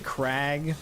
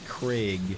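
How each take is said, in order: First: The vowel sounds like the one in 'crag'. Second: The vowel sounds like the one in 'Greg'. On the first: The speaker calls it right. "like the Kraken" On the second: The speaker calls it wrong. "like the coffee Keurig kind of thing"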